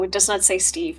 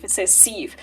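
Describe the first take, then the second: First: Said in the usual way. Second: Steve said without its t, as "seev"; corrected word. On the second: Shown as a demonstration. Game master correcting the misread word, Steve said as "seev". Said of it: "But no, it does not say Steve".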